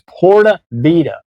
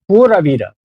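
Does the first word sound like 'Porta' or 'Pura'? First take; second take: Porta; Pura. First: The first word sounds like 'Porta'. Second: The first word sounds like 'Pura'. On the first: The speaker calls it wrong. "I always used to say Porta in my videos" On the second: The speaker calls it right. "It's like Pura Vida"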